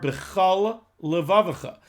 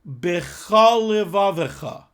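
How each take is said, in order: First: A short pause separates the two words. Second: The two words run together without a pause.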